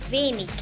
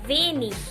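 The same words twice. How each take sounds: First: The word ends with a hard k sound. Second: The word ends with a soft hissing ch sound. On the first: "o como ik" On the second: "puede pronunciarse como ich"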